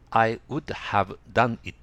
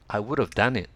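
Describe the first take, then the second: First: 'Would have' is pronounced in full. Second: 'Would have' is reduced and linked. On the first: The speaker calls it wrong. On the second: The speaker calls it right.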